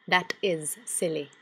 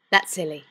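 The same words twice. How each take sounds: First: "That is silly" spaced out slowly, word by word; measured, deliberate "That is silly"; slow emphatic insistence. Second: Said in the usual way. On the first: Acted. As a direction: stretch out "is" in "That is silly".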